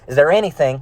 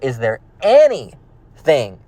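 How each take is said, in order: First: The word anything is said without extra emphasis. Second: The any in anything is said with strong emphasis. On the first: The speaker calls it wrong. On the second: The speaker calls it right.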